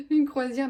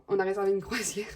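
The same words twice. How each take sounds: First: "Une croisière" higher and louder, laughing; amused disbelief. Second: Said in the usual way. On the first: Real, not acted. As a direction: say "Une croisière" again as if you can't believe it. Repeats the cruise, laughing at excess. ("Une croisière" répété plus fort et plus aigu, en riant)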